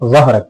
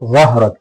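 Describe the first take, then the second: First: The first consonant is a heavy emphatic z. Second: The same.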